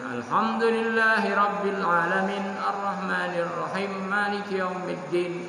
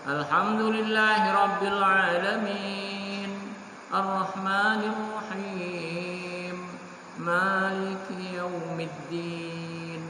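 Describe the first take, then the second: First: The vowels before the final consonants are cut short. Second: The vowels before the final consonants are drawn out. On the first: The speaker calls it wrong. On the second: The speaker calls it right. "setidak-tidaknya dibaca dua alif, empat harokat"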